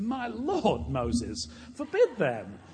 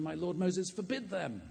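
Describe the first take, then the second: First: "lord" drawn out high and loud, like an exclamation; slow, hammed-up "My lord Moses" with a huge swoop on "lord"; wrong punctuation. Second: Said in the usual way. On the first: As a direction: imitate a matron crying "My lord" as a shocked oath. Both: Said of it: "she got the spirit right, but the punctuation wrong".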